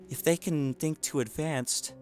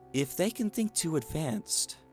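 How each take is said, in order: First: The voice sounds steady and normal. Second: The voice sounds weak, faint and dying.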